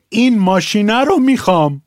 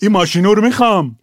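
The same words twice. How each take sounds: First: Said in the usual way. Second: ماشینو said with a Shirazi o ending, a bit faster; ماشینو in Shirazi form; Shirazi pronunciation. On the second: Shown as a demonstration. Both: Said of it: "کلاسه رو کلاسوره".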